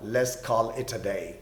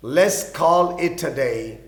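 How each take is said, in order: First: Slow and quiet example line; low-key slow model sentence; soft slow read. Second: Very slow, clear teacher's read; slow example line; very slow repeat. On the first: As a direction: murmur it slowly. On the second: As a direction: repeat it slowly at full voice. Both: Shown as a demonstration.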